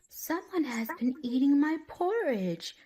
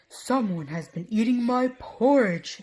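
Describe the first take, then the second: First: It is said in a wee small voice. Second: It is said in a great big voice.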